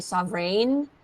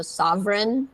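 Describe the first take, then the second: First: Sovereign ending in a long "ain", rising; imitated mispronunciation. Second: Sovereign ending in a short "en"; last part like N. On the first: Teacher echoing the learner's mistake, sovereign ending like "rain". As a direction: say sovereign as sov-rain, copying the slip. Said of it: "it sounds like you're saying". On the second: Shown as a demonstration. Teacher modelling for the learner, sovereign ending in short "ren". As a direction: say sovereign as sov-ren, light final N. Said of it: "the last part sounds like N".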